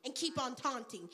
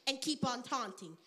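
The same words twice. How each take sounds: The two takes are said the same way.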